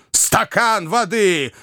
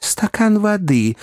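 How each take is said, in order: First: High, drawn-out mocking echo; fuming gentleman's exclamation; enraged cry. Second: Slow, high call for help; good-natured gentleman calling for water; kindly request. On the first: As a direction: throw it back furiously, stretching the words. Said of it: "вскричал взбешённый Уордль". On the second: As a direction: ask kindly but urgently, drawing it out. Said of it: "попросил добрейший мистер Пиквик". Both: A narrator's reading.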